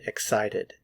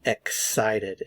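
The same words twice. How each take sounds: First: Said in the usual way. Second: "excited" slowly split as ek, sited; syllable by syllable. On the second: Shown as a demonstration. Teacher shows learners the pronunciation of "excited", syllable by syllable. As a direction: separate the first syllable of "excited" from the rest. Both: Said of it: "Notice the pronunciation".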